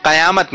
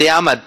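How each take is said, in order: First: قیامت said qa-yaamat, a after the q; wrong pronunciation. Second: قیامت said qi-yaamat, i after the q; correct pronunciation. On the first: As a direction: give قیامت a zabar on its first letter, qa-. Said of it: "قیامت نہیں ہے". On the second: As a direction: give قیامت a zer under its first letter, qi-. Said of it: "قاف کے نیچے زیر ہے". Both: Shown as a demonstration.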